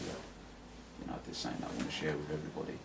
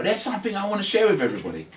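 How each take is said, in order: First: Softer, drawing listeners in; quiet, gentle invitation to share. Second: Higher, louder and fast; loud overexcited announcement; announcing loudly. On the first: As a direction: bring them in gently. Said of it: "just bring people in gently and just say". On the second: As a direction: blurt it out like a big announcement. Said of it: "you wanna go". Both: Shown as a demonstration.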